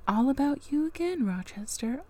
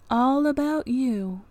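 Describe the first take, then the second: First: Snarky aside. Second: "All about you" slowed, stress hitting "All"; slow repeat. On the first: Reader scolds Rochester's self-pity, stressing "again" with scorn. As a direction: scoff it, landing hard on "again". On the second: Reader repeats her jab at Rochester, slow, stress on "All". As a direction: drag it out, punching "All". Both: Real, not acted.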